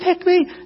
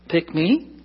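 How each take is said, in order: First: It is said eagerly and excitedly. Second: It is said hesitantly and reluctantly.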